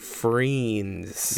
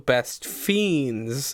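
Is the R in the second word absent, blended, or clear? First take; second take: blended; absent. First: The second word has a half-blended R sound. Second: The second word has no R sound. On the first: The title means both friends and fiends. "So I combine it and say Friends" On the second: The title names fiends. "but also Best Fiends"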